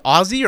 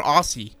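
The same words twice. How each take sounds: First: Aussie with a buzzing z, like Ozzy; voiced z in the middle of Aussie; z sound in Aussie. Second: Aussie with a hissed s, like AW-see; unvoiced s in the middle of Aussie; s sound in Aussie. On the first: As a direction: say Aussie as AW-zee. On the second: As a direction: say Aussie to rhyme with saucy. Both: Shown as a demonstration. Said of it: "is it Aussie or Aussie".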